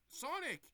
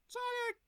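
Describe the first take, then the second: First: Calling out. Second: Much higher, loud cry of the name; desperate call. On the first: Calling after Sonic. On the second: Tails waking up and crying out for Sonic, loud. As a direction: scream his name as he leaves. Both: Retold or imitated.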